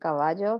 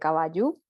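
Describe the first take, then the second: First: The word ends with an 'o' sound. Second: The word ends with a stressed 'u' sound. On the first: This is the Spanish form. "en lugar de decir caballo" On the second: This is the Guaraní form. "se dice caballú"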